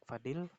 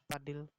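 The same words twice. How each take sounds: First: The word begins with an F sound. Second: The word begins with a P sound. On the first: This is how educated speakers say it. "bunyi F ... sering terdapat dalam ujaran kaum yang berpendidikan" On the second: This is how speakers without formal schooling say it. "Bagi orang yang tidak dapat menikmati pendidikan formal, bentuk-bentuk tersebut sering diucapkan"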